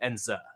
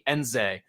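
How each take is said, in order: First: The surname does not end with a 'zay' sound. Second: The surname ends with a 'zay' sound. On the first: The speaker calls it right. "he pronounced it more like Kachi Enze" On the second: The speaker calls it wrong. "we've been calling Kachi Enze this whole time, like Z A Y"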